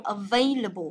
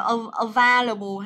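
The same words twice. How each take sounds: First: "available" with VAY, not VAH; correct pronunciation. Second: "available" with VAH instead of VAY; mispronounced "available". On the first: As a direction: say "available" as uh-VAY-luh-bul for students. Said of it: "Đọc là available cho cô". (đọc đúng "available", nhấn vào "vây") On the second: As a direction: stretch a wrong open "a" in "available": uh-VAH-luh-bul. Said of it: "Không đọc là". (đọc sai "available", âm giữa thành "va") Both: Shown as a demonstration.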